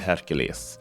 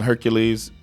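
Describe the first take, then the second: First: The name has a Swedish pronunciation. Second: The name has an American English pronunciation. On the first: "I'll try my best to say Hercules since I'm in this country" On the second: "I'm used to saying Hercules"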